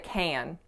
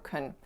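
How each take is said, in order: First: The vowel is full and the word stressed. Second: The vowel is reduced to a weak schwa. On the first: The word carries the key information. "it would be appropriate to stress can" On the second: It is an ordinary unstressed helping verb. "most native speakers are going to produce it in this reduced form"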